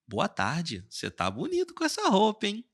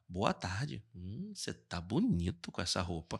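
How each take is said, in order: First: The compliment sounds plain and friendly. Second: The compliment sounds suggestive and flirtatious.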